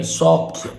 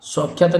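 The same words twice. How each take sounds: First: सौख्य as "saukhya"; ends in khya. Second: सौख्यता as "saukhya-taa"; extra taa ending. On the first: Teacher correcting the word, सौख्य without "taa". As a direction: stop सौख्य right after "khya". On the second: Teacher showing the mistake, सौख्यता with extra suffix. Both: Shown as a demonstration. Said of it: "सौख्यता नहीं".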